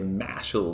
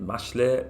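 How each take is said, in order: First: It is said with a put-on American accent. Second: It is said with a Japanese-style pronunciation. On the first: "put on my horrible American voice and say Mashal" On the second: "that's probably how you pronounce it in Japanese"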